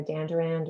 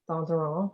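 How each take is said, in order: First: Dandurand said in an American way; American pronunciation. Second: Danduran as an American attempts it in French; attempted French pronunciation. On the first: Host introduces herself by surname, American pronunciation. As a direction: say Dandurand with plain American English sounds. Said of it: "butcher it with my American accent". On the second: Host offers her surname another way, attempted French pronunciation. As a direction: give Danduran French vowels through an American accent. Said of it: "I butcher it with my American accent". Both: Shown as a demonstration.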